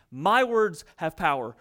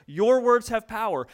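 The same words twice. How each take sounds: First: MY pressed slow and heavy, words after it lighter; stress on MY. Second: Words hit a bit higher and louder than Your; stress on WORDS. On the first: Preacher stressing My to his congregation, slow and weighty. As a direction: lean hard on the word My. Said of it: "stress on my in contrast". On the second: Preacher turning the point to the listeners, stressing words. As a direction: land the weight on words. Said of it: "stress moves to your words". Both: Shown as a demonstration.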